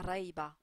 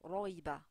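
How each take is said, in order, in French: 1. Le r est léger, avec une voyelle a ouverte. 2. Le r est lourd, avec une voyelle o arrondie. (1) "et pas raïba" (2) "on dit ro, roïba"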